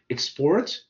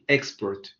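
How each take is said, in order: First: The stress is on the second syllable. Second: The stress is on the first syllable. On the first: The word is used as a verb. "They are verbs" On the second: The word is used as a noun. "they are um, nouns"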